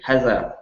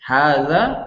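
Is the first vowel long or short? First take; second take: short; long. First: The first vowel is short. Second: The first vowel is long. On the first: The speaker calls it wrong. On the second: The speaker calls it right.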